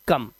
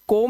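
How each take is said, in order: First: The vowel sounds like 'uh'. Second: The vowel sounds like 'oh'. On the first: The speaker calls it right. "इसे पढ़ेंगे कम" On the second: The speaker calls it wrong. "इसे कोम नहीं पढ़ेंगे"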